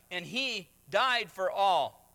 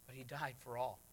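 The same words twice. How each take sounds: First: Loud, slow proclamation on died; proclaimed. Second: Much softer, lower repeat; hushed. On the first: Preacher to congregation, loud slow declaration. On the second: Preacher to congregation, hushed repeat. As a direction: drop to a near hush, "died" gently falling. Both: Acted.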